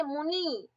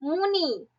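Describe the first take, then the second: First: मुनि with its last vowel drawn out; stretched final ई. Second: Said in the usual way. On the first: Shown as a demonstration. Teacher shows why it is ई करांत, मुनि stretched out. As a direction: hold the closing इ of मुनि long. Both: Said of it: "ई आ रहा है".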